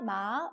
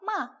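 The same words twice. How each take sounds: First: The syllable is said with the second tone. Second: The syllable is said with the fourth tone. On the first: "2성" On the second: "4성"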